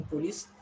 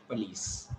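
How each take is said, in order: First: Police with a full O, POH-lees; imitating others' police, "poh-lees"; others' mispronunciation. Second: Police with a weak first vowel, puh-LEES; teacher modelling police as "puh-lees"; correct pronunciation. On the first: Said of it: "If they are calling police". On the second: Shown as a demonstration. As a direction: say police as "p'lees", falling. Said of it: "you should pronounce it police".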